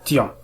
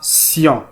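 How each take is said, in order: First: The syllable begins with a T sound. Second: The syllable begins with an S sound. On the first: The speaker calls it wrong. "وليس tion" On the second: The speaker calls it right. "فإنهم ينطقون sion"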